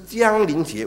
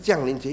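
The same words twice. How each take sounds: First: The first syllable has a level tone. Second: The first syllable has a falling tone. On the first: Something is about to come. The speaker calls it right. "我觉得更好的这个名词" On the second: Christ has already come down to earth. The speaker calls it wrong. "因为是降临耶稣基督在2000 年前降临在世上"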